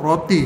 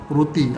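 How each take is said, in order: First: The first vowel sounds like 'o'. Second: The first vowel sounds like 'u'. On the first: The speaker calls it right. "sebutan yang betul ialah ro roti" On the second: The speaker calls it wrong. "bukan ru ruti"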